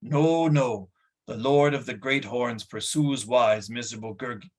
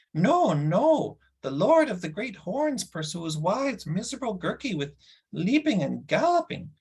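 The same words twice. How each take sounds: First: Said in the usual way. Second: Much higher, sing-song creature whine; whining creature Gurgi. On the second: Shown as a demonstration. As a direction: redo the line as the frightened little beast. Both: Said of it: "No, sorry".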